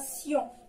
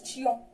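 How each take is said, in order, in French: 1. La syllabe commence par un son s. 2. La syllabe commence par un son t. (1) "كتقرا سيون" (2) "ما كتقراش تيون"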